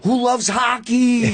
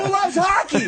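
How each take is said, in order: First: High, drawn-out hype-man call; imitating Dice. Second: Very high-pitched, hollered question; onstage hype call. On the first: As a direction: stretch out a sample crowd question. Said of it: "And then be like". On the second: Retold or imitated. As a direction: whip up the crowd at full pitch. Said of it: "I walk out, I go".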